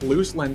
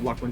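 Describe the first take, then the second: First: The first syllable sounds like 'loose'. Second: The first syllable sounds like 'luck'. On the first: The speaker calls it wrong. "sounds like I'm talking about a chick named Lynn who's loose" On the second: The speaker calls it right. "Lucklin just rolls off better off the tongue"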